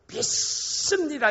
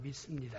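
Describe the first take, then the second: First: The word is shouted loudly. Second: The word is said quietly. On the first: "이렇게 소리 질러서" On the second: "조용하게"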